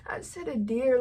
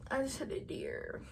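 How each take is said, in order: First: Said in the usual way. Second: Repeated softer, fading to a whisper; trailing whisper. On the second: Retold or imitated. Repeating the news to Jim, fading into a dazed whisper. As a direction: let it drop to a stunned whisper.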